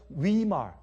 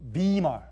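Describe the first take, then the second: First: The name begins with a W sound. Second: The name begins with a B sound.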